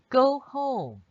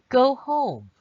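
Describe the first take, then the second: Both takes have the same delivery.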